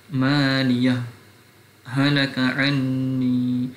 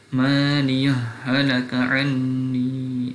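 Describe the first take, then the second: First: A brief stop separates maliyah from halaka. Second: The two h sounds merge without any stop. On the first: "izhar dan juga saktah" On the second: "akan dibaca dengan idgham"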